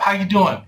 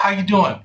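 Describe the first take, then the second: First: It is asked quickly and lightly, as a greeting. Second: The same.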